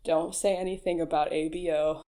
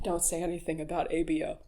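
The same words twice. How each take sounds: First: Said in the usual way. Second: Quick, soft aside to yourself; quick hushed aside. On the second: Shown as a demonstration. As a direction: mutter it fast under your breath.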